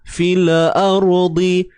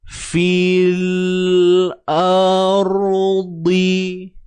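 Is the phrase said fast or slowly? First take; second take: fast; slowly. First: The phrase is said quickly, tongue released early. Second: The phrase is said slowly, tongue held longer. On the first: The speaker calls it wrong. "kalau kita baca laju, itulah bunyi dia" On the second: The speaker calls it right. "Kalau saya buat lagi gerakan perlahan"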